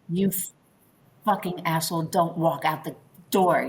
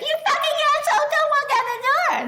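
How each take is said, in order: First: The voice is loud but warm and grounded. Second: The voice is high, tight and shrill.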